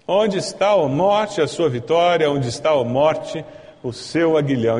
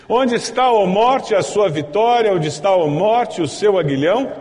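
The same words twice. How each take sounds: First: Scripture repeated in a steadier voice, settling down; composed, unhurried recitation; measured re-reading. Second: Loud, high-pitched ringing challenge to death; exultant scripture taunt at full voice; triumphant declamation. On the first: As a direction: read the verse deliberately, easing off toward the end. Same verse repeated more calmly. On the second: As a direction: proclaim the verse like a victory cry. Triumphant first reading of the verse. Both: Acted.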